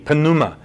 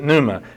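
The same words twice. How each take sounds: First: The word begins with an audible P sound. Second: The word begins with an N, P silent. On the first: This is how the ancient Greeks may have said it. "the Greeks may have actually pronounced the P" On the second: This is how it is said today. "We don't. We pronounce it pneuma"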